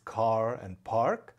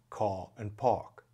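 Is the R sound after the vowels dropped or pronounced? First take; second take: pronounced; dropped. First: The R after the vowels is pronounced. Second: The R after the vowels is dropped. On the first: "some people pronounced the R in words such as car and park" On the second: "and others did not"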